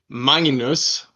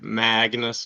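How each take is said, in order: First: The name is said with a Swedish pronunciation. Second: The name is said with an American pronunciation. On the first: "That's how you pronounce it" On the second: "as the Americans say over here"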